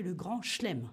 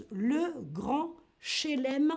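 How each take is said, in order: First: "chelem" as one syllable, chlem; dropped E. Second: "chelem" slowly, in two syllables, che-lem; spelling pronunciation. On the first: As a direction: skip the first E in "chelem". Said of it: "on fait sauter un E". (« chelem » prononcé « chlèm », sans le premier E) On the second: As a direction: sound the first E in "chelem". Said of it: "ça s'écrit". (« chelem » lentement, en prononçant le premier E) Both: Shown as a demonstration.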